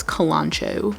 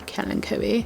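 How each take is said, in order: First: "Kalanchoe" said kuh-LAHN-choh; three syllables, stress on LAHN in "Kalanchoe"; alternative pronunciation. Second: "kalanchoe" said KAL-in-koh-ee, softly; four syllables, stress first, hard k in "kalanchoe"; alternative pronunciation. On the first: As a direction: say "Kalanchoe" with a ch sound, ending in choh. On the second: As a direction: quietly try "kalanchoe" ending in koh-ee. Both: Real, not acted. Trying out ways to pronounce it.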